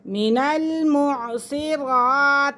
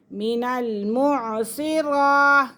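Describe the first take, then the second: No difference in how they are said.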